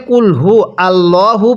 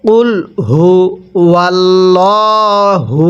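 First: কুল হু আল্লাহু said with a plain আ after হু, no w sound; wrong pronunciation. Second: Slow chant, ওয়াল্লাহু linked with a w and the ল held long; correct recitation. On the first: Teacher showing students the common wrong reading. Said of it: "এখানে আমরা একটা বড় ভুল করে থাকি". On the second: Teacher showing students the correct slow recitation. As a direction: drawl out কুল হু ওয়াল্লাহু as a steady chanted line. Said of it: "তাহলে কিভাবে পড়ব?". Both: Shown as a demonstration.

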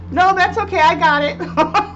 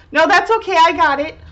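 First: High, then drawn out slowly at the end; grown-up kid voice. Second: High, breezy little grown-up; grown-up kid voice. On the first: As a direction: repeat the child's line, savouring each word. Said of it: "no, no hesitation". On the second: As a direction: copy the child's confident reply, brightly. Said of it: "talking, uh, so adultish now". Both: Retold or imitated.

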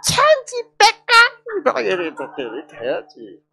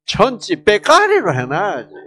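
First: Gyeongsang 천지 빼까리로 pitched much higher and stretched slowly; 경상도 사투리로 높고 길게; drawn-out Gyeongsang dialect. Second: Gyeongsang dialect phrase 천지 빼까리로, said loudly with a falling end; a hearty Gyeongsang-style exclamation; 경상도 사투리로. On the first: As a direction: sing out the Gyeongsang phrase high and drawn out. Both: Shown as a demonstration. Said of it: "경상도 말로 어떻게?".

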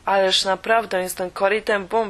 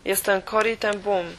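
First: Łagodnie naciskając, z nutą uporu; spokojnie, ale z naciskiem, żeby uwierzyła; przekonując. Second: Said in the usual way. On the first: A narrator's reading. (Corrie przekonuje pielęgniarkę, kim jest, z lekkim naciskiem) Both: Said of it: "przekonywałam".

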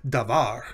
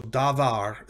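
First: Davar with the accent on VAR; stress on second syllable. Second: Davar with both syllables drawn out, weight on DA; misplaced stress. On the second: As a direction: say davar slowly, leaning on the first syllable. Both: Shown as a demonstration. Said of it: "the accent is on the second".

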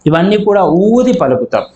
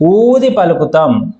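First: Said in the usual way. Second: ఊది stressed, phrase said slowly; slower stressed repeat. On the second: Shown as a demonstration. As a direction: lean on ఊది slowly for emphasis. (ఊది పై ఒత్తిడితో నెమ్మదిగా)

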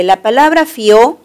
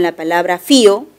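First: "fió" as one syllable, weight on the ó; stress on final ó. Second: "fío" with the weight on FI, falling away on o; stress on í. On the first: Teacher showing students the monosyllable, "fió" stressed on ó. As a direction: say "fió" rising onto a stressed ó. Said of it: "monosílabo". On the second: Teacher warning against confusing the words, "fío" stressed on í. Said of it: "No confundir con la palabra fío". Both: Shown as a demonstration.

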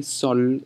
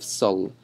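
First: "sol" with a rounded o vowel; correct sol sound. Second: "sul" with a u vowel in place of o; wrong vowel. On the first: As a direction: say "sol", not like sul. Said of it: "Make sure you do say sol". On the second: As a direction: say the mistaken "sul". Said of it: "instead of sul". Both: Shown as a demonstration.

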